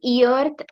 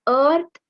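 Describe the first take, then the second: First: Earth mispronounced with an "ee" start, like "ee-arth"; wrong earth. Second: Earth with an "ur" vowel, like "urth"; right earth. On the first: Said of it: "earth ऐसा नहीं बोल सकते". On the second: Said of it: "the earth is the right word". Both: Shown as a demonstration.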